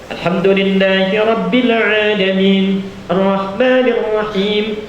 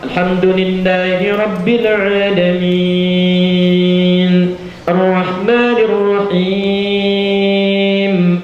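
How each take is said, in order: First: Long vowels are held briefly, recited quickly. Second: Long vowels are stretched out, recited slowly. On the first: Suited to many optional prayers like tarawih. "itu dua harakat cepat ya, cepat" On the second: Suited to praying alone, most complete. "Misal enam harakat, tiga detik"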